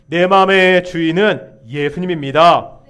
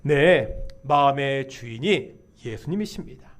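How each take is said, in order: First: Loud, emphatic declaration; confession of faith. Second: Said in the usual way. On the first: Real, not acted. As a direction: lead the congregation in proclaiming it. (회중을 이끄는 힘찬 신앙 고백) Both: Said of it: "한번 이렇게 고백할까요?".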